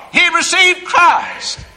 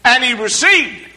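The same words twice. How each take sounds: First: Received stretched slow and high; He received Christ said slowly, high and joyful; joyful emphasis. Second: Said in the usual way. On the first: Shown as a demonstration. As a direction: lean into received with joy. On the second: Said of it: "How so?".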